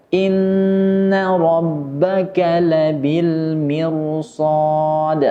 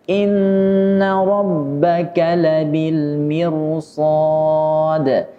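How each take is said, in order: No difference in how they are said.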